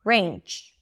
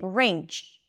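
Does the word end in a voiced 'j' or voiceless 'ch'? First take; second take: ch; ch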